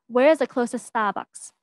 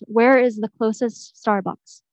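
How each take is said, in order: First: The R in Starbucks is dropped to ah. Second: The R in Starbucks is clearly pronounced. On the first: "if I were to try to say it in a Bostonian accent" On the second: "if I were to read it in my own uh, normal accent"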